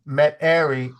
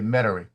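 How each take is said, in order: First: The middle is said fully as 'airy'. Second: The middle is squeezed, sounding like 'metry'. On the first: It is said the way it is spelled. "would be the way it looks" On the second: It is said the way locals say it. "we don't go airy. We say Metairie"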